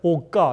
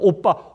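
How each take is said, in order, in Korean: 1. 가운데 자음은 된소리 k예요. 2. 가운데 자음은 된소리 p예요. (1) "입술의 발음을 못 되니까 오까" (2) "오빠라는 발음"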